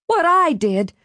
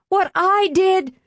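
First: High incredulous echo, a different voice; outraged disbelief. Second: Even higher and slower, leaning on I; slower outraged repeat. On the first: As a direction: throw his words back at him in shock. Mother outraged at son. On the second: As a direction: repeat it slower with mounting fury. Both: Acted.

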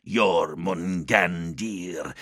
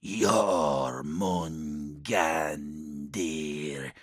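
First: Slow, drawn-out demon voice. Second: Faint, far-off demon voice; distant demon voice. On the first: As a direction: call the name like a demon. Demon names him. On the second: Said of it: "The voice sounded as if from a great distance now". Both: Acted.

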